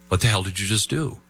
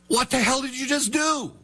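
First: It is said as a plain, calm question. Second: It is said as an emphatic, exclaimed question.

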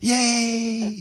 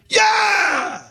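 First: It is said very quietly and flatly. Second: It is said loudly and excitedly.

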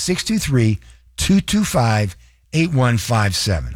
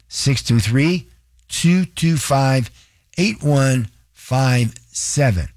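First: The number is said at a faster pace. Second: The number is said at a slower pace.

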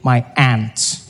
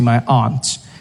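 First: It is said in an American accent, like 'ant'. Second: It is said in the speaker's own accent, 'ahnt'.

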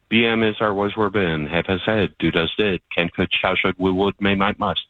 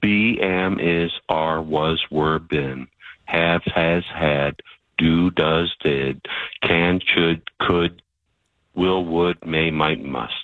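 First: The list is said fast. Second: The list is said slowly.

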